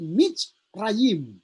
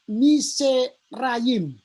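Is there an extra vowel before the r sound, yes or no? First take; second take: no; yes. First: No vowel is sounded before the r. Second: An extra vowel is sounded before the r. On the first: The speaker calls it right. "Jadi Mitzrayim" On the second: The speaker calls it wrong. "bisa dibaca Miserayim. Tapi ini tidak dibaca begitu"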